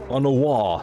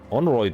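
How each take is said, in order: First: The name ends with a 'wa' sound. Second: The name ends with a 'royd' sound. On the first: The speaker calls it right. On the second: The speaker calls it wrong. "How could I not know that Honoroyd was supposed to be pronounced Honowa?"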